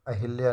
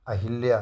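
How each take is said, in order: Both takes have the same delivery.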